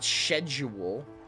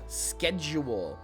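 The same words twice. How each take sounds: First: The word begins with an sh sound. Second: The word begins with an sk sound. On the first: The speaker calls it wrong. "not schedule" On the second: The speaker calls it right. "Sk schedule"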